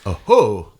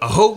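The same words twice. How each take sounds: First: The o vowel goes up and then down. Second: The o vowel stays level without rising-falling. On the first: It means thank you. The speaker calls it right. "that little accent mark has a little up and down thing on the O" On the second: It means kill him. The speaker calls it wrong. "But what aho means in Kiowa? Kill him"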